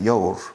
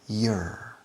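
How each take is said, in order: First: It is said with a Spanish accent. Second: It is said with a native English accent. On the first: The speaker calls it wrong. "Spanish people pronounce it your" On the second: The speaker calls it right.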